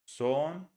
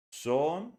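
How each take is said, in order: First: Son said with the short vowel of sun, no lip rounding; correct vowel. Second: Son said with a round Spanish o; wrong vowel. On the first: Teacher showing learners the right vowel in son. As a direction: say Son exactly like sun, lips relaxed. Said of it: "See the difference?". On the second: Teacher showing learners the wrong vowel in son. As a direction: mispronounce Son with a pure o and rounded lips. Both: Shown as a demonstration.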